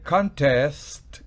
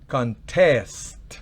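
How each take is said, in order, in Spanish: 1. El acento está en la primera sílaba. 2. El acento está en la última sílaba. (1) "el acento fonético está en la primera" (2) "siempre el verbo lleva el acento en la última sílaba"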